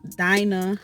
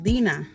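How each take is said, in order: First: The first syllable sounds like 'die'. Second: The first syllable sounds like 'dee'. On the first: This is not how the speaker's parents pronounce it. "I don't like to be called Dinah" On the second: This is how the speaker's parents pronounce it. "which for me is Dina, which is in Spanish"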